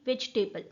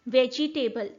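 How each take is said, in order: First: The second vowel is dropped. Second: The second vowel is fully pronounced. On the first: The speaker calls it right. "It is actually वेजिटेबल, ई sound हम pronounce ही नहीं करते" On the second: The speaker calls it wrong. "Is the wrong pronunciation"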